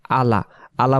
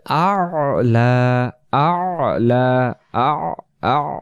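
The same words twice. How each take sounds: First: আলা as a quick, simple "a-la"; wrong আলা, ayn dropped; missing ayn. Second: আলা slowly with a throaty ayn held before "la"; long আলা, two drawn-out syllables; correct ayn. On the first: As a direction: say আলা short, with no throat sound. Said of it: "আইন অক্ষর বাদ চলে যায়". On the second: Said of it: "এই জায়গায় বলতে হবে". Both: Shown as a demonstration.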